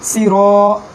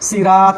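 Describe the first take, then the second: First: The r is followed by a rounded 'o' vowel. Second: The r is followed by an open 'a' vowel. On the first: The speaker calls it right. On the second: The speaker calls it wrong.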